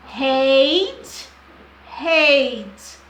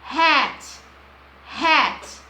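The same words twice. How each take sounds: First: Hate with a long "ei" glide, said loud. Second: Hat with a short, open "a", said loud. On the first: Teacher contrasting hate and hat for students. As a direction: stretch the "ei" in Hate. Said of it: "da vogal longo". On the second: Teacher contrasting hat and hate for students. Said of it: "o A curto". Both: Shown as a demonstration.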